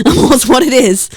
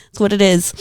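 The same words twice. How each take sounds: First: Laughing it out, a touch louder; laughing repeat of a shrug line. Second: Said in the usual way. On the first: Real, not acted.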